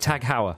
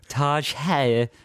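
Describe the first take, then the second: First: The first word ends in a hard g sound. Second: The first word ends in a soft j sound. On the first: "Tag Heuer is what I used to say" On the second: "I used to pronounce it Taj Hair"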